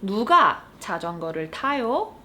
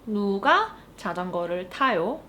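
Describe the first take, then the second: First: Fast, native-speed Korean question; fast model question. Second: Fast question with a clear rise at the end; fast repeated question. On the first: Teacher modeling the Korean question quickly. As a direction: rattle off the question. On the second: Teacher repeating the question for learners. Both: Shown as a demonstration. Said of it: "all you need to do is say".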